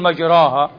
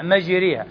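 First: The long vowel is a plain open a. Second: The long vowel leans toward an e sound. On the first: The ship sails smoothly on level water. The speaker calls it wrong. "لا تقول مجراها" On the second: The ship rises and dips over mountainous waves. The speaker calls it right. "تقرأ بهذه الإمالة مجريها"

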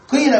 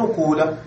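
First: The first vowel is i said with rounded lips. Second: The first vowel is a rounded u. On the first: "بالكسر مع ضم الشفتين فتشم شيئا من الضمة مع الكسر" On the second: "تترك الضمة كما هي ولكن لا تكسر ما قبل الآخر فتقول قولة"

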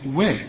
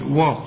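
First: The waw is pronounced thin and light. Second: The waw is pronounced thick and heavy. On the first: The speaker calls it right. "الواو هنا رققها" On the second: The speaker calls it wrong. "ما تقولش وقد وا"

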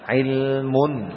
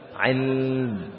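First: The word ends with a full -un ending. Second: The word stops short without the -un ending. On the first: The reading continues without stopping. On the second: The reading stops at this word.

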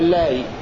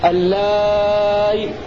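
First: The vowel before the hamza is kept short. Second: The vowel before the hamza is held long. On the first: "مع المد والقصر" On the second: "مع المد والقصر"

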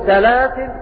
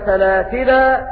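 First: The word ends on a stopped final consonant. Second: The word ends on a long final a vowel. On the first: "بالسكون" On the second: "بإثبات الألف"

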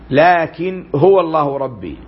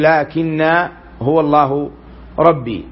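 First: The vowel after the double n is short. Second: The vowel after the double n is long. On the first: This is the reading of most reciters. "وقرأ الباقون لكن بغير ألف في الوصل" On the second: This is the reading of two particular reciters. "بخلاف ابن عامر ونافع في الوصل"

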